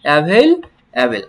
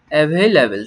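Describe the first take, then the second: First: available stretched out slowly, each syllable clear; slow teacher demo; slow model word. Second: Said in the usual way. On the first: Shown as a demonstration. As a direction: spell it out in sound for the class. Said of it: "teacher models the word". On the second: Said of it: "quick take before slow model".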